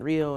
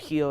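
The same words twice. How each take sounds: First: The word begins with an English R sound. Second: The word begins with a sound like H.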